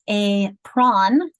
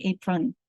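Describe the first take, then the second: First: "a prawn": both halves of apron stressed equally, O full. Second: "apron" with an uh in the second syllable; schwa apron. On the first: Teacher showing the wrong even stress, slowly. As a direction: say "a prawn" slowly, full vowel in the second part. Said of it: "we are not stressing these equal". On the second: Teacher showing the right way: "apron" with a schwa. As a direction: say "apron" as "APE-run", the O swallowed. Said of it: "more of an uh sound". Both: Shown as a demonstration.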